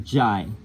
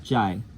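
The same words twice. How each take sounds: First: The vowel sounds like 'eye'. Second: The vowel sounds like 'eye'.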